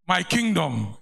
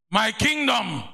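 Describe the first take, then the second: First: Said in the usual way. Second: A preacher's ringing cry; proclaimed shout. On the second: Acted. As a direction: call it out to the church. Preacher proclaims his refrain.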